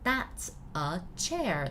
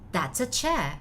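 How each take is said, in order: First: The words are said separately, not linked. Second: The words are linked smoothly together. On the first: The speaker calls it wrong. "Not that's a, that's a chair, not like that" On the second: The speaker calls it right. "it's kind of connected"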